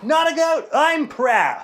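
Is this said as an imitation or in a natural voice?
imitation. It is said in a put-on imitating voice. "But of course you'd say it like"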